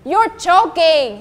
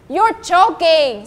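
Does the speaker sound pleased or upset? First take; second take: pleased; pleased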